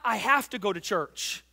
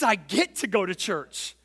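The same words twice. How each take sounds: First: "have" leaned on as a burden word; stress on HAVE. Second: "get" punched as the key word; stress on GET. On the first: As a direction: lean on "have", then let the rest fall. Contrasting have to with get to. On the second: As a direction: hit "get" hard, then fall away. Contrasting get to with have to. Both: Shown as a demonstration.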